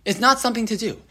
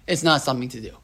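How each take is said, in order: First: "not" hit with a falling accent; stress on not. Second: Said in the usual way. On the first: Shown as a demonstration. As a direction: press the word "not" to insist.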